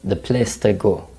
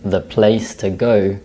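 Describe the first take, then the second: First: The vowels are said as monophthongs. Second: The vowels are said as diphthongs.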